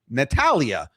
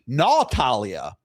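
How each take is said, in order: First: The first vowel sounds like the 'a' in 'at'. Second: The first vowel sounds like the 'aw' in 'naughty'. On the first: The speaker calls it right. "why would the pronunciation of the short form take a different pronunciation of the A than the long form? Natty" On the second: The speaker calls it wrong. "it shouldn't go natty"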